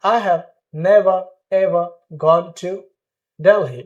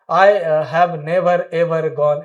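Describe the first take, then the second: First: "never ever" as neh-va eh-va; spaced out, no R in "never ever"; silent R. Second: "never ever" with both final Rs pronounced; slow, R-heavy "never ever"; wrong, sounded R. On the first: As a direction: open ah endings on "never ever". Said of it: "आर को silent करके बोलेंगे". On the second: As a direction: link the Rs in "never ever gone". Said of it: "this is totally wrong". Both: Shown as a demonstration.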